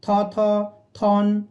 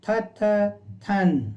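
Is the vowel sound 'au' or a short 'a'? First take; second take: au; short a. First: Each syllable carries a long 'au' vowel. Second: Each syllable carries a short 'a' vowel. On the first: The speaker calls it wrong. "पढ़ते समय हम थौ थौ थौन नहीं बोलते हैं" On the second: The speaker calls it right. "व्यंजन रूप का प्रयोग कर हम बोलते हैं"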